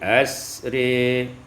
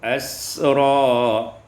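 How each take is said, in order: First: The final vowel leans toward e. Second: The final vowel is an open a.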